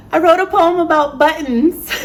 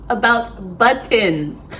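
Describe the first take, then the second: First: High-pitched reveal on the edge of laughter; amused reveal. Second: "about buttons" slowed down, each syllable set apart; deliberate repeat. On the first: Telling viewers what the poem was about, amused and high-pitched. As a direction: announce it high, tickled by your own topic. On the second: Repeating the poem's topic for viewers, slow and deliberate on "buttons". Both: Real, not acted.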